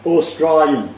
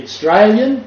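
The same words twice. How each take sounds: First: "Australian" in full as "Aw-stry-lian"; broad dialect form. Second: "Australian" said as "Straylian", no opening vowel; contracted dialect form. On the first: Contrasting two dialect forms, "Australian" as broad "Aw-stry-lian". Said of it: "or you can be". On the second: Contrasting two dialect forms, "Australian" as short "Straylian". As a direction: drop the first syllable of "Australian". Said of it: "depending on the Australian dialect". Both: Shown as a demonstration.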